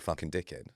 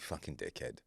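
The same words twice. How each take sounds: First: The insult is said in a harsher, aggressive tone. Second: The insult is said in a warm, jokey tone. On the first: It could start a row. "Second one was just fractionally more aggressive" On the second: It is meant as a joke. "I'm saying that in a jokey way. ... The first one was affectionate"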